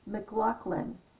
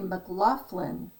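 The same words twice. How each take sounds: First: The middle of the name has no F sound. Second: The middle of the name has an F sound. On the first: It is the Scottish form of the name. "when you say it like that, it's Scottish" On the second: It is the Irish form of the name. "like sounds like an F in the middle, it's Irish"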